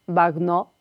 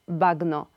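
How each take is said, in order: The two takes are said the same way.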